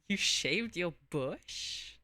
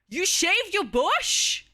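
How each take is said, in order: First: It sounds playful and flirty. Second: It sounds shocked and surprised.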